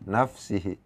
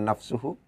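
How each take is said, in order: First: The vowel after the s is i. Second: The vowel after the s is u. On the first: The speaker calls it right. "Pakai kasroh di sini" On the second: The speaker calls it wrong. "bukan nafsuhu"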